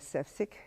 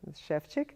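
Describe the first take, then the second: First: The name is said the American way. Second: The name is said the Czech way. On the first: "as people pronounce it in America" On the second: "but Shevchik"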